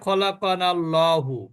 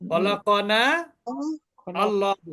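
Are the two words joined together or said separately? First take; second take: joined; separate. First: The two words are linked into one. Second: The two words are said separately.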